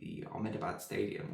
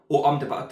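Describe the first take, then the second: First: The name is said in a plain English way. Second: The name is said in a local-sounding way.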